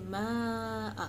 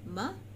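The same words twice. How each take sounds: First: The vowel is drawn out long. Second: The vowel is kept short. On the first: The speaker calls it wrong. "you don't say ma" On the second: The speaker calls it right. "you will say ma"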